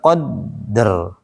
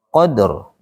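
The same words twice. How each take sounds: First: The consonant is held before being released. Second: The consonant is released quickly with a bounce. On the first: The speaker calls it wrong. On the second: The speaker calls it right.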